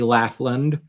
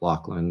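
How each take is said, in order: First: The first syllable sounds like 'laugh'. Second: The first syllable sounds like 'lock'. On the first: The speaker calls it right. "for this case it has to be Laughlin" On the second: The speaker calls it wrong. "as opposed to like Lachlan"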